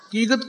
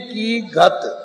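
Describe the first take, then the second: First: The two words are run together as one. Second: The two words are kept apart as separate words. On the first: The speaker calls it wrong. "कीगत कीगत कोई शब्द नहीं है" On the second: The speaker calls it right. "मन्ने की गत"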